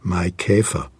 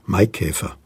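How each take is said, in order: First: The stress is on the second syllable. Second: The stress is on the first syllable. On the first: The song's meter forces this against natural pronunciation. The speaker calls it wrong. "nicht auf der ersten Silbe, sondern auf der zweiten Silbe" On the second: This is how it is said in ordinary speech. The speaker calls it right. "Wenn wir sprechen, sagen wir Maikäfer"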